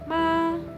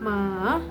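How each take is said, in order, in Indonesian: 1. Nadanya tetap tinggi dan datar. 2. Nadanya turun lalu naik. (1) "diucapkan dengan tinggi dan datar" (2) "dari naik, turun, naik lagi"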